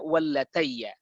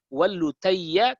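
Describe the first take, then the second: First: The vowel after the l sounds like 'a'. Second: The vowel after the l sounds like 'u'. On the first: This is how the dictionary reads it. "di kamus dibacanya wallatayya" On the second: This is how the scholar's recording reads it. "Beliau mengatakannya"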